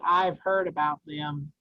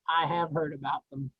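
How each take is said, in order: First: 'I have' is contracted into one syllable. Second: 'I have' is said as two separate words. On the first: The speaker calls it right. "if it says I've heard about them" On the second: The speaker calls it wrong. "you guys keep separating the contractions"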